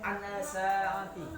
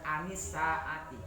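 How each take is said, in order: First: No vowel links an to saati. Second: A short 'i' vowel links an to saati. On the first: The speaker calls it wrong. "Tidak boleh" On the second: The speaker calls it right.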